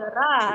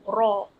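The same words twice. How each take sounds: First: The r sound is light and thin. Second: The r sound is heavy and thick. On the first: The speaker calls it wrong. "dia tak boleh baca ra, rasul, rasulum. Ha, salah" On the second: The speaker calls it right. "Yang betulnya dia kena tafkhim, dia kena tebal"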